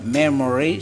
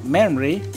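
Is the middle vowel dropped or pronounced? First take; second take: pronounced; dropped. First: All three syllables are fully pronounced. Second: The middle vowel is dropped, giving two syllables. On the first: The speaker calls it wrong. "no se dice memory" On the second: The speaker calls it right. "sino memory"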